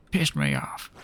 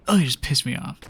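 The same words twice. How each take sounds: First: Exaggerated deep-pitched grumble; mock-angry low voice. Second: Said in the usual way. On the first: Student venting about her examiner, mock-angry low voice. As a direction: drop very low for comic annoyance.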